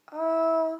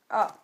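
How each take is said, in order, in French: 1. Le ton reste haut et plat. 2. Le ton chute brusquement du haut vers le bas. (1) "le premier ton est haut et plat" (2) "le quatrième ton, il est descendant"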